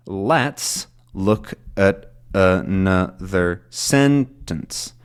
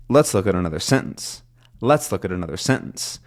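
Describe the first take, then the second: First: Very slow, each syllable apart, "sentence" strongest; slow stressed breakdown. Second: Connected run, stress on "Let's" and "sentence"; flowing sentence stress. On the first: Teacher showing learners the flow of stress, slowly broken down. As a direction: spell out the beats, strong "Let's" and "sentence". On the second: Teacher showing learners the flow of stress, run together. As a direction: link "look at another" lightly into "sentence". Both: Shown as a demonstration. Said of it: "you get this sort of flow of stress".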